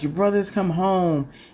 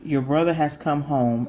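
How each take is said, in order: First: It is said with explosive, happy excitement. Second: It is said in a plain, flat tone.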